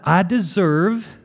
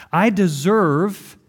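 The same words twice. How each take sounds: First: A touch of Southern drawl on deserve; southern tang. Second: Said in the usual way. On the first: Real, not acted. Pastor hearing his own Southern tang, lightly. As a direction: slip into a slight Southern twang. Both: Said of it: "that had a southern tang to it".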